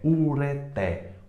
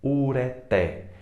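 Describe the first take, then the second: The two takes are said the same way.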